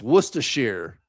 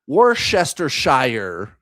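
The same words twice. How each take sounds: First: Worcestershire is pronounced the British way. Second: Worcestershire is pronounced the American way. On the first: The speaker calls it right. "No, it's Worcestershire" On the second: The speaker calls it wrong. "I said the Thames River or Worcestershire"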